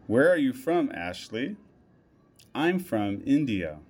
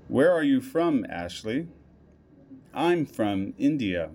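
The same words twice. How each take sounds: The two takes are said the same way.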